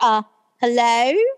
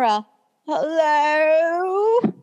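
First: Hello is said as a normal greeting. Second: Hello is said as a low, drawn-out groan.

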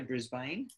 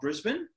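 First: It is said with an American pronunciation. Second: It is said with an Australian pronunciation.

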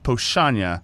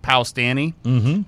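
First: It is said with the Polish sounds. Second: It is read letter by letter, English style. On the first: The speaker calls it right. "but it's Pochanya" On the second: The speaker calls it wrong. "So it looks like Powstanie"

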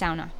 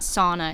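First: The word is said the Finnish way. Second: The word is said in a non-Finnish way. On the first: The speaker calls it right. "that's how you actually pronounce it. ... it's sauna. Says my Finnish mother" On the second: The speaker calls it wrong. "It's not sauna"

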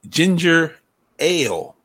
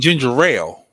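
First: The two words are kept apart, no linking sound. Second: The two words run together, sounding like rail. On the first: The speaker calls it right. "It's ginger ale. Not rail" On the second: The speaker calls it wrong. "you're saying ginger ale"

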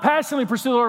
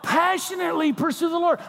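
First: It is said flatly, with little energy. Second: It is said with strong, fervent energy. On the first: The devotion is casual and half-hearted. The speaker calls it wrong. "not passionately pursue the Lord, like, that's a pretty good song they're singing up there" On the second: The devotion is wholehearted and intense. The speaker calls it right. "No, passionately pursue the Lord"

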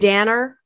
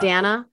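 First: The name ends with an added r sound. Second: The name ends in a plain vowel sound. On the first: "you put ahs on the end of the words where there is no ah" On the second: "not Danna"

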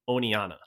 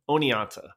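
First: The T sound in the middle is dropped. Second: The T sound in the middle is pronounced. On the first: "pronounce it without the T" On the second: "pronounce the name of the gorge with a T"

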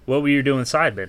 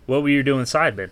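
First: It is said in his natural voice. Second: The same.

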